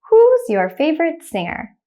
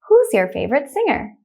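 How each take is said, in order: First: The sentence is said slowly. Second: The sentence is said quickly. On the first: "The first time I will say it slowly" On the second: "the next time I will say it quickly like a native speaker"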